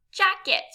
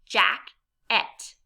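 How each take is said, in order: First: Said in the usual way. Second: JACKET as jack, pause, et; two separate beats in JACKET; syllable by syllable. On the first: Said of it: "What word do you have?". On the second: Shown as a demonstration. Teacher gives learners a word to blend, JACKET syllable by syllable. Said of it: "say some words in parts".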